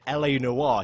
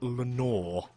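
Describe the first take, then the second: First: The title begins with two spelled-out letters. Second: The title is run together as one word. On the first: "instead of calling it L A Noire" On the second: "he kept pronouncing it Lenore"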